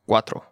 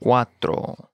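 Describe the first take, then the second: First: Said in the usual way. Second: "Cuatro" in two slow syllables; slow model. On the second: Shown as a demonstration. Teacher modelling vocabulary for learners, slow "Cuatro".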